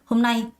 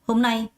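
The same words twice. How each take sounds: Both takes have the same delivery.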